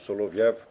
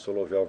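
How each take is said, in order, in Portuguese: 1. A última sílaba é pronunciada com som de e. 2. A última sílaba é pronunciada com som de o.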